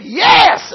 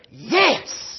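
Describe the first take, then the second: First: Yes shouted loud and high; exultant yes. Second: Said in the usual way. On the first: Retold or imitated. Preacher voicing John's joyful yes, shouting. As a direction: burst out with the yes. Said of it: "He said". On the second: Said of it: "you just say".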